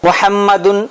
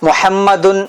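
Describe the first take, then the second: Both takes have the same delivery.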